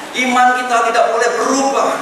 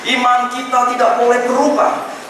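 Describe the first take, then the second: No difference in how they are said.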